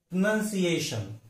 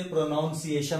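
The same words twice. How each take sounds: First: प्रोनाउंसिएशन with short "nun", not "noun"; correct pronunciation. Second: प्रोनाउंसिएशन with "noun" in the second syllable; wrong pronunciation. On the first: Teacher answering what is correct, correct pronunciation. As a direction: say pruh-nun-si-AY-shun. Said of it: "उसका उच्चारण correct क्या है". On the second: Teacher quoting the common mistake, wrong pronunciation. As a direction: say pro-NOUN-si-ay-shun. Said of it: "गलती से प्रोनाउंसिएशन ऐसा उच्चारण". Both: Shown as a demonstration.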